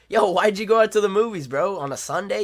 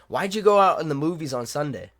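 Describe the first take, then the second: First: It sounds playful and teasing. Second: It sounds serious and flat.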